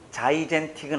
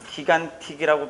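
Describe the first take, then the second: First: The word begins with a soft J sound. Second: The word begins with a hard G sound. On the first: The speaker calls it right. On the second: The speaker calls it wrong.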